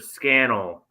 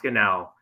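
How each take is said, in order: First: The name rhymes with the word flannel. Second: The name is said with an Italian-sounding ending. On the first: The speaker calls it right. "So it's Scannell like flannel" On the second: The speaker calls it wrong. "not Scannell"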